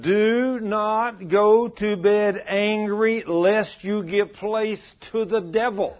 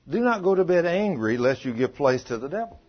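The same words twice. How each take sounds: First: High, very slow, every word of "Do not go to bed angry" stretched; emphatic recitation. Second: Said in the usual way. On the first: Shown as a demonstration. Preacher driving scripture home to congregation, emphatic recitation.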